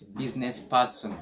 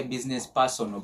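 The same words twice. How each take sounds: First: "business person" ending in a light PAR-sn; correct pronunciation. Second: "business person" with a full O, PAR-SON-o; wrong pronunciation. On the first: Teacher corrects the mistake, light final syllable in "business person". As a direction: swallow the last vowel of "business person". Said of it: "but no, it's business person". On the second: Teacher mimics learners' mistake, full O ending on "business person". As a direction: sound out the last vowel of "business person". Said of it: "Some people say business person". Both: Shown as a demonstration.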